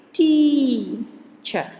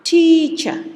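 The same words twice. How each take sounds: First: Teacher with the first syllable TEA longer and stronger; stress on TEA. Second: Teacher with TEA longer, much higher and louder; full stress on TEA. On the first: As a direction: stretch out TEA in Teacher, then drop on cher. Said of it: "the stress is here on the s-, on the first syllable". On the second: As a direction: give TEA in teacher all three: length, pitch, volume. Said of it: "So all three combined". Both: Shown as a demonstration.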